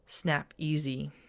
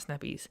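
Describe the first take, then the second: First: The name ends in two syllables, 'ee-zee'. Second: The name ends in one syllable, 'eez'. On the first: The speaker calls it right. "It's Snap-easy, like E A S Y" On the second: The speaker calls it wrong. "It's not Snap-ease"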